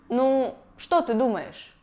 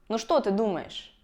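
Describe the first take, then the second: First: 'Nu' is set apart with its own emphasis. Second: 'Nu' runs straight into the rest of the phrase. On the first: The speaker calls it wrong. "когда слово «ну» постоянно выделяется" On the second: The speaker calls it right. "Вместо"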